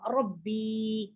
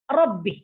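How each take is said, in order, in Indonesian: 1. Vokal akhirnya panjang. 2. Vokal akhirnya pendek. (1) "Kadang ada dalam kalimat lain dia panjang" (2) "Dia tidak panjang"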